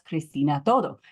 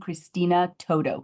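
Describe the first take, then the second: First: The name is said with Latin-style pronunciation. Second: The name is said with English pronunciation.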